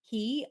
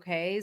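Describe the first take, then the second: First: The word rhymes with 'tea'. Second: The word rhymes with 'day'. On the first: This is how locals say it. "I know that the Bahamians pronounce it key" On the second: This is the cruise line's name for the island. "I have to say perfect day at Coco K so that I know that that's how they pronounce it"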